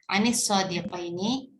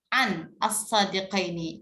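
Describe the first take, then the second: First: The two words are joined by an i sound. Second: The two words are separated by a break. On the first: The speaker calls it right. "Jadi bacanya" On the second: The speaker calls it wrong. "terputus ke- kesulitan gitu ya"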